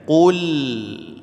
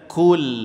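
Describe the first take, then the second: First: It begins with a deep back q sound. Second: It begins with a plain front k sound. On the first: The speaker calls it right. "Qu-nya monyongkan, lamnya huruf tipis senyumkan" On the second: The speaker calls it wrong. "Jangan dibaca kul"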